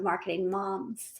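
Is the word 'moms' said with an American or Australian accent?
American. Moms is said with an American 'moms' vowel.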